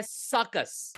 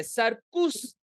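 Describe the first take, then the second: First: सर्कस with a neutral second vowel, "SUH-kuhs"; neutral schwa. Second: सर्कुस with a clear "oo" in the second syllable, "sar-KOOS"; wrong U sound. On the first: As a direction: blend the U in सर्कस into a short "uh". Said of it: "वो यू नहीं है". (सर्कस में "कस" को हल्के "अ" से बोलें) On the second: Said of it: "नहीं है". (सर्कुस में "उ" साफ़ बोलें) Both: Shown as a demonstration.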